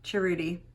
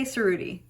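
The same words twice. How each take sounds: First: "Cerruti" with an opening CH sound; CH pronunciation. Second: "Cerruti" with an opening S sound; S pronunciation. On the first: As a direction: pronounce "Cerruti" chuh-ROO-tee. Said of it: "Is it Cerruti or Cerruti?". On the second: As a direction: pronounce "Cerruti" suh-ROO-tee. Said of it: "let's say Cerruti". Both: Shown as a demonstration.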